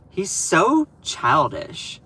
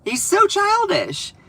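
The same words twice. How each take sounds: First: Said in the usual way. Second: Much higher, slow sing-song mockery; mocking high voice. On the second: Vlogger mocking the president's childishness in a high whine. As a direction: repeat it in a high taunting whine. Repeats line in mock voice.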